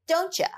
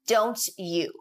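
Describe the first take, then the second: First: The word 'you' is reduced to 'ya'. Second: The word 'you' is said in full as 'you'.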